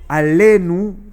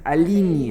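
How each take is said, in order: First: The word ends in an oo sound. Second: The word ends in an ee sound. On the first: "en vez de decir Alenu" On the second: "dicen Alini"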